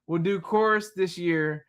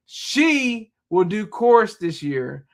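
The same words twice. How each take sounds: First: Said in the usual way. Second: Slow, careful reread stressing She; corrected reading. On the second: Shown as a demonstration. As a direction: reread slowly, hitting She hard. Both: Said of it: "I'm reading how it should be".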